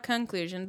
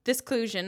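First: "conclusion" with a contrastive CON; stress on CON. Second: "this conclusion" run together as "disclusion"; made-up word disclusion. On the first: Host correcting the listener, CON stressed in "conclusion". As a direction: hit the first syllable of "conclusion". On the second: Host coining a word, "this conclusion" merged into "disclusion". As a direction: say "this conclusion" as one word, DIS-clusion. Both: Shown as a demonstration. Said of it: "not conclusion".

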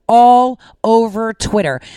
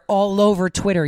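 First: All over Twitter said louder and slower, leaning on All; emphatic repeat. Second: Said in the usual way. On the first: Real, not acted. Telling her viewers, with slow loud emphasis on All over Twitter. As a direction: hammer home All over Twitter, drawn out.

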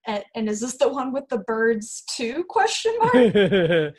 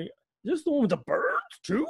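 First: "too" as a tentative question, then "question mark" spoken out; plain read, lifting "birds too" into a question. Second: "birds" and "too" leaping into a high, incredulous squeak; up an octave. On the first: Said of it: "I would like to end it with". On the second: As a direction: question mark, exclamation point on "birds too". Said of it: "just go up an octave at the end". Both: Shown as a demonstration.

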